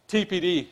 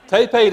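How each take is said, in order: First: It is said in a South African accent. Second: It is said in an Australian accent. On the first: "as you can hear with my accent" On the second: "she tells me I've got to pronounce this as T P D"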